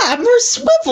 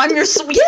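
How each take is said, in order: First: Excited. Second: Said in the usual way. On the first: Real, not acted. Excited repeat of swivel.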